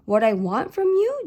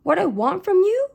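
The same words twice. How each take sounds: First: Confused. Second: High, loud incredulous echo; louder repeat. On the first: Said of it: "Joseph looked confused". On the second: Father repeating his daughter's question, raised and louder. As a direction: throw her words back, much louder. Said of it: "He repeated himself". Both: A narrator's reading.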